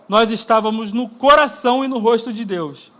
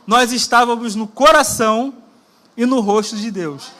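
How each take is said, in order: First: It is spoken at a normal speed. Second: It is spoken slowly and deliberately.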